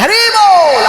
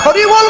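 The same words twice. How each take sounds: First: It is said with a mocking foreign accent. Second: It is said in a plain native Bengali accent. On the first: It mocks how foreigners say it. The speaker calls it wrong. "এখন আমার বাঙালিরা ওদের মতো করে ভেঙচি কাটে" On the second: It is said sincerely, as a Bengali would. The speaker calls it right. "তুমি তো ভাই বাংলা বলতে পারো"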